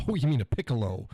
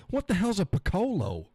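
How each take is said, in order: First: "piccolo" said PICK-uh-loh; correct piccolo. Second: High, baffled question with "piccolo" as puh-KOH-loh; mispronounced piccolo. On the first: Realising the word, "piccolo" properly said PICK-uh-loh. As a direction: stress the first syllable of "piccolo": PICK-uh-loh. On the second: Baffled reader asking himself, "piccolo" misread as puh-KOH-loh. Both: Retold or imitated. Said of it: "it could be pronounced that way".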